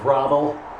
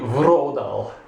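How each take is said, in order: First: The first vowel is an A sound. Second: The first vowel is an O sound. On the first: It is read as an English speaker would. The speaker calls it wrong. "in American English this looks like" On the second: It is read as a Swedish speaker would. The speaker calls it right. "so it's probably Vrodal, ... which converts it to an O sound"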